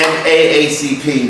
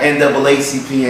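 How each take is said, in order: First: Each letter A is spoken separately. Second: The two A's are spoken as 'double A'. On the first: The speaker calls it right. "we call it N A A C P" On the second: The speaker calls it wrong. "not N double A C P anymore"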